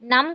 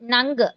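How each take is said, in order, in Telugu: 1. ఈ అక్షరం మూసుకున్న m శబ్దంతో ముగుస్తుంది. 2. ఈ అక్షరం నాసికా ng శబ్దంతో ముగుస్తుంది. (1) "నం కాదు" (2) "నంగ్ అనే శబ్దం వస్తుంది"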